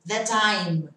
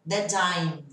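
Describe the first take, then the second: First: The phrase is contracted and linked together. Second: The same.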